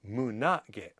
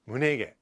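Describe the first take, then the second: First: The second vowel sounds like 'a'. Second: The second vowel sounds like 'e'. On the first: The speaker calls it right. "the proper way to say it is munage" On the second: The speaker calls it wrong. "I think I just put that together myself"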